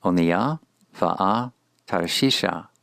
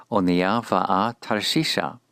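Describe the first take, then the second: First: Slow "Onia va'a Tarshisha", paused between words. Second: Said in the usual way. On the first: Shown as a demonstration. Teacher introduces the Hebrew title to learners, slow and word by word. Phrase read in parts, then whole.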